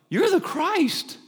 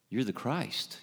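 First: It is said with sudden surprise, like an aha. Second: It is said in a plain, matter-of-fact way.

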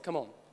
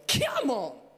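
First: It is said calmly, toned down. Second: It is said with lots of energy.

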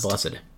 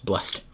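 First: The word has two syllables, ending in -ed. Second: The word has one syllable, ending in a T. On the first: The speaker calls it wrong. "Not blessed" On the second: The speaker calls it right. "with a T"

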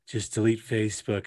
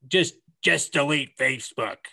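First: It is said in an exaggerated put-on voice. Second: It is said in a plain, ordinary voice. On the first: The speaker calls it right. "They sound like this" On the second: The speaker calls it wrong. "No, they don't sound like that"

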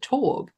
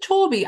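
First: The name is said with one syllable. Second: The name is said with two syllables. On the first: "I pronounce it Torb" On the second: "do you pronounce it Toby?"

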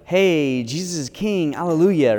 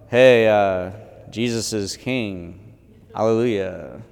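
First: It is said in a joyful, lively tone. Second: It is said in a flat, unenthusiastic tone.

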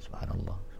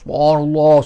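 First: It is said quietly, as if to oneself. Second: It is said loudly, as if shouting.

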